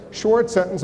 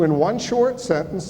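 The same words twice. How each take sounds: First: "short" repeated and hit hard, falling; stress on short. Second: "short" leaned on with a falling tune; stress on short. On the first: Moderator repeating "short" for the candidates, firm stress. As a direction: punch "short" as a reminder. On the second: Moderator stressing "short" to the candidates, firm emphasis. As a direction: press the word "short" firmly. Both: Shown as a demonstration. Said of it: "the emphasis is on the word short".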